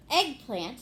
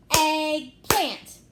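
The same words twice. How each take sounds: First: Said in the usual way. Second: "Eggplant" loud and higher, in two separate beats; clapped-out syllables. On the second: Shown as a demonstration. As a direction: chant "Eggplant" with a loud beat on each syllable. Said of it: "Let's clap it out".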